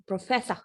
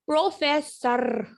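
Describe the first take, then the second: First: "प्रोफेसर" ending "-fessah", no R; silent R. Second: Slow "प्रोफेसर" with a heavy rolled final R; wrong hard R. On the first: Teacher correcting the hard R, "प्रोफेसर" with silent final R. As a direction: let "प्रोफेसर" finish on an open "ah". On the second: Teacher showing what not to say, "प्रोफेसर" with hard R. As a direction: overdo the R ending "प्रोफेसर". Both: Shown as a demonstration. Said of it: "नहीं होता".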